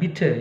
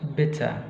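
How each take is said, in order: First: The i vowel is long. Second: The i vowel is short. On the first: The speaker calls it wrong. "Bukan bitter ya" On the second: The speaker calls it right. "Tapi pendek dia"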